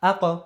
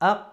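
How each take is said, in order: First: The final consonant is released with a bouncing echo. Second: The final consonant is stopped plainly without release. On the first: The speaker calls it right. "বলতে হবে কি আ ক" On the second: The speaker calls it wrong. "এরকম হবে না কিন্তু"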